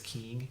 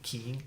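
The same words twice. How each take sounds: Both takes have the same delivery.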